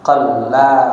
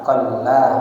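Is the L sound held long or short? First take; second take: long; long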